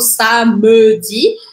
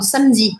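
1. A vogal do meio é pronunciada. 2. A vogal do meio é omitida. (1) "eu não falo samedi" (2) "mas eu falo samedi"

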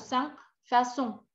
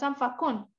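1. La consonne du milieu est un son S doux. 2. La consonne du milieu est un son K dur. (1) "sino Sanfason" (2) "Uno no dice"

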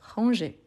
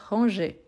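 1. La consonne est un son j doux. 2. La consonne est un son j doux.

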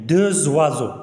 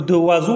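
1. صوت z يربط بين الكلمتين. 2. الكلمتان تُنطقان بدون صوت z رابط.

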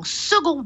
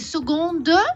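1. Le mot se termine sur une voyelle nasale, sans d. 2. Le mot se termine par un son d audible.

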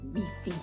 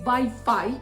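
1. Це слово вимовляється з французькою вимовою. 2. Це слово вимовляється з українською вимовою. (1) "французи кажуть" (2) "який ми називаємо так саме українською мовою"

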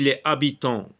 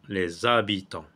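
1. Le s est muet devant « habitants ». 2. Un son z lie « les » à « habitants ». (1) "si on dit les habitants et qu'on ne fait pas de liaison" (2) "on fait la liaison"

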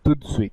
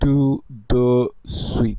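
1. শব্দগুলো এক নিঃশ্বাসে একসাথে বলা হয়। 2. প্রতিটি শব্দ আলাদাভাবে এবং পুরোপুরি বলা হয়। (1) "একেবারে একভাবে উচ্চারণ করতে হয়" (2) "মানে এটি আসলে ভুল হয়ে যায় উচ্চারণের দিক থেকে"

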